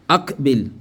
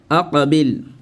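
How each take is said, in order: First: The q sound is plain, with no echoing bounce. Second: The q sound has a short echoing bounce. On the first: The speaker calls it wrong. "les Arabes ont dit akbil" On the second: The speaker calls it right. "Avec la règle de qalqala"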